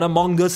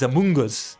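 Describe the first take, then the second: First: The middle syllable sounds like 'mung'. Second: The middle syllable sounds like 'moon'. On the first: It sounds like the name of a different game. The speaker calls it wrong. "It's not Among Us" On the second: It names the intended creature. The speaker calls it right. "it's Amoonguss"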